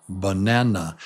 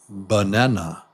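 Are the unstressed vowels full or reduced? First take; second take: reduced; reduced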